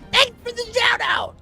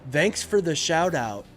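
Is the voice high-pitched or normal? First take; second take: high-pitched; normal. First: It is said in a very high-pitched voice. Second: It is said in a normal speaking voice.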